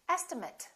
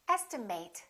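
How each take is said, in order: First: The ending is reduced, like 'it'. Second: The ending is full, like 'eight'. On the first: It is used as a noun. "Or estimate, if it's a noun" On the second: It is used as a verb. "This can be a verb. In that case, it's pronounced as estimate"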